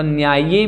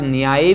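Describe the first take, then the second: First: The y sound is held long and doubled. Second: The y sound is short and single. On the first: "चाहें तो द्वित्व कर सकते हैं" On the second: "चाहें तो द्वित्व ना करें"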